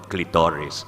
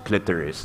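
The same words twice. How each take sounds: First: It is said with the Filipino pronunciation. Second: It is said with a non-Filipino pronunciation. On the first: "We Filipinos call it clitoris" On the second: "I have to learn how to pronounce it as clitoris"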